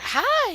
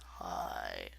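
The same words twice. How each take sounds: First: The greeting is lively and high in energy. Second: The greeting is low and lacking in energy. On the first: The speaker felt good. "last night I was like" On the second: The speaker feels miserable. "you can also hear it in my voice"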